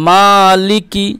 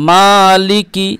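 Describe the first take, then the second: The two takes are said the same way.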